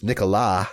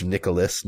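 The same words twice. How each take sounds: First: "Nicolas" the French way, silent final s; French pronunciation. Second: Said in the usual way. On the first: Shown as a demonstration. Naming the fake French son, "Nicolas" said the French way. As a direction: say "Nicolas" as nee-co-LAH. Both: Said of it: "how you would say that in French".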